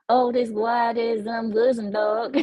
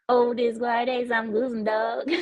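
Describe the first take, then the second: First: Slow, mock southern drawl on the words. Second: Second go at the Southern drawl, laughing through it. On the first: Shown as a demonstration. Streamer tries Austrian greeting for chat in southern drawl. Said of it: "say those letters with a southern drawl". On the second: Pretend. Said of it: "Wait, here we go".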